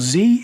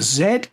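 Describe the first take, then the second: First: The letter is said as zee, American style. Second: The letter is said as zed, non-American style.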